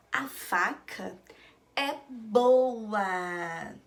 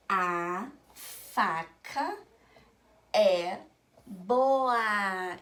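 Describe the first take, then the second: First: "a faca", pause, then louder "é boa"; reading in two chunks. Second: Very slow, long pauses, stretched vowels; reading word by word. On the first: Teacher reading back the board's sentence, in two chunks. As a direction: read it back measured, stretching "boa". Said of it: "Aqui está escrito que". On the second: Teacher reading a written sentence to children, word by word. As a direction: drag out each word, "é" and "boa" loud. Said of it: "quando eu leio de sílaba em sílaba". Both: Shown as a demonstration.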